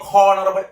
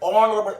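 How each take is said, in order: First: The word begins with an h sound. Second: The word begins with a vowel sound. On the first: The speaker calls it wrong. "അവരുടെ pronunciation" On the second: The speaker calls it right. "ഓണറബിൾ എന്നാണ് pronounce ചെയ്യേണ്ടത്"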